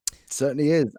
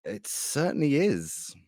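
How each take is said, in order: First: Said in the usual way. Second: Slow and soft, drawn out; slow quiet emphasis. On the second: Shown as a demonstration. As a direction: savour it quietly.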